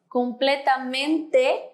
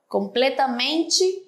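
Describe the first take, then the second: First: It is pronounced with Spanish sounds. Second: It is pronounced with Portuguese sounds. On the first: "en español" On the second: "en portugués"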